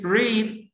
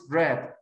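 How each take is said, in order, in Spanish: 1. La vocal es larga, como en 'reed'. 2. La vocal es corta, como en 'red'. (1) "in the infinitive is read" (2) "in the past is read"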